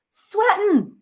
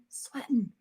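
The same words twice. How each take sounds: First: SWEATING pitched way up; squeal-high repeat of the word "Sweating"; comic emphasis. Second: Said in the usual way. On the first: Real, not acted.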